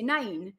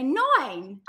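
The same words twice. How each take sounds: First: "nine" with a narrow Geordie vowel, close to "neyn". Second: Drawn-out Essex "nine", like "noin". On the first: Geordie showing her own accent, "nine" as "neyn". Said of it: "So in our accent". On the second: Geordie showing how Essex says it, Essex "noin". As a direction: stretch "nine" wide and higher in Essex style. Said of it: "but in Essex, they say". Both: Shown as a demonstration.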